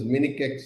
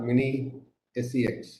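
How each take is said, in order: First: The C is said as a hard k sound. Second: The C is said as a soft s sound. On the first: The speaker calls it right. "This also is Minikex" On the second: The speaker calls it wrong. "not Mini SEX"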